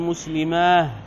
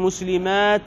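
First: The word ends with an h sound. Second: The word ends with a t sound. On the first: The speaker calls it wrong. "وعلى مسلمات بالهاء بدل التاء" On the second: The speaker calls it right. "ومسلمات يوقف بالتاء"

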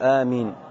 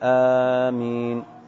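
First: The first vowel is short and the m single. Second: The first vowel is long and the m single. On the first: "تخفيف الهمزة وتخفيف الميم" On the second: "بمد الهمزة وتخفيف الميم"

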